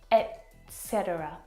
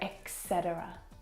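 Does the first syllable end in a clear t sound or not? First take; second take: clear t; no t. First: The first syllable ends in a clear t sound. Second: The first syllable has no clear t sound. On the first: The speaker calls it right. "it should be pronounced et, t" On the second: The speaker calls it wrong. "Lots of native English speakers actually mess this up"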